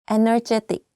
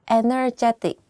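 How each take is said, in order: Both takes have the same delivery.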